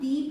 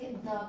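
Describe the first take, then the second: First: The vowel sounds like a long ee. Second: The vowel sounds like a short uh. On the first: The next word starts with a vowel sound. "यहां पे इसे हम दी pronounce करेंगे" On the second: The next word starts with a consonant sound. "यहां पे इसे द pronounce करेंगे"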